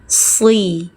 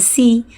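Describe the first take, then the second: First: The s sound is heavy and thick. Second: The s sound is light and thin. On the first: The speaker calls it right. "tetap tebal meskipun berharakat bawah" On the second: The speaker calls it wrong. "jangan si"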